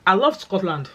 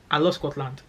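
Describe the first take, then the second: First: Excited declaration. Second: Said in the usual way. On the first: Real, not acted.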